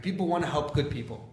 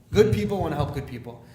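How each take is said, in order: First: Said in the usual way. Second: Opening "Good" punched louder; stress on Good. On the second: Real, not acted. Speaker driving home his message, stress on the first "Good". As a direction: hit the first "Good" hard, then carry on. Repeats line, adding emphasis on good.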